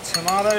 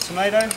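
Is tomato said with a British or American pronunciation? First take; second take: British; American. First: It is said with a British pronunciation. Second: It is said with an American pronunciation. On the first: This is how the speaker says it. "I call it tomato" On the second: This is how the listeners say it. "You call it tomato"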